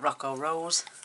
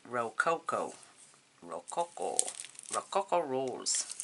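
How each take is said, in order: First: The first word is said with two syllables. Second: The first word is said with three syllables. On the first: The speaker calls it wrong. "You can call it Rocco Rose if you want" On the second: The speaker calls it right. "Actually Rococo Rose"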